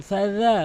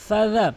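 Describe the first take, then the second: Both takes have the same delivery.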